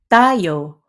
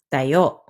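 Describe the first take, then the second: First: "tayo" with long, stressed TA; stress on first syllable. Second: "tayo" with short TA, stressed YO; stress on last syllable. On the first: Teacher contrasting meanings for learners, "tayo" stressed on first syllable. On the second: Teacher contrasting meanings for learners, "tayo" stressed on last syllable. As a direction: land on the final syllable of "tayo". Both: Shown as a demonstration. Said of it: "Stress affects meaning".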